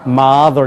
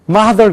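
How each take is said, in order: First: It is said with an American-style accent. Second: It is said with a Korean-style accent. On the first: The speaker calls it right. "mother 이렇게 읽어야 된다면" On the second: The speaker calls it wrong. "한국 사람들 틀림없이 mother 그런단 말이에요. 그렇게 내면 안 된다는 거예요"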